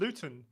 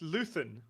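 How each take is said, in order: First: The middle consonant is a plain t sound. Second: The middle consonant is a th sound. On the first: The speaker calls it wrong. "you keep calling him Luton" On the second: The speaker calls it right. "It's Luthen"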